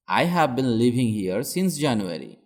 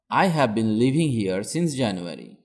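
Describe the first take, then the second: No difference in how they are said.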